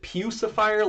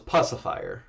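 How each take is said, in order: First: The first syllable sounds like 'pew'. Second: The first syllable sounds like 'puss'. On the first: "like pew pew P E W" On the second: "Puss. ... P U S S"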